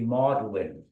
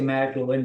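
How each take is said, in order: First: The name is said the local English way. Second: The name is said the way outsiders say it. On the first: The speaker is from the area. The speaker calls it right. "they say Magdalene" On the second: The speaker is not from the area. The speaker calls it wrong. "they don't say Magdalene"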